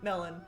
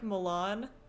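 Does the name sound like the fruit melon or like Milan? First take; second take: melon; Milan. First: It sounds like the fruit, melon. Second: It sounds like the city name, Milan. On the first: "Not melon. Not like the food" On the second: "I think it's more of like Milan"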